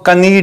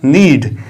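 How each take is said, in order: First: A k sound is heard before the n. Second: The word starts directly with the n sound. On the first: The speaker calls it wrong. "इसको कनीड नहीं पढ़ते हैं" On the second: The speaker calls it right. "इसको पढ़ते हैं हम नीड"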